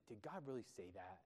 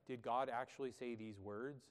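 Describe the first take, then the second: First: Derogatory, softly scoffing question; mocking. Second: Said in the usual way. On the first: Shown as a demonstration. Preacher voicing Satan's question to Eve, softly mocking. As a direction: quietly belittle what was said. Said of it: "in a mocking, sort of, like, derogatory way". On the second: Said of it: "the idea behind it is not like".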